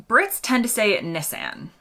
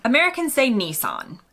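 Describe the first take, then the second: First: "Nissan" with a short i, NISS-an, flat a; "Nissan" as NISS-an, like miss; British Nissan. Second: "Nissan" with the ee sound, NEE-sahn; "Nissan" as NEE-sahn, ending in an open ah; American Nissan. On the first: Host gives the British way of saying the car brand. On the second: Host gives the American way of saying the car brand. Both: Shown as a demonstration.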